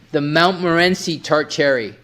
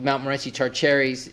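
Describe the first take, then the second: First: It is said slowly and carefully. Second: It is said at normal fast pace.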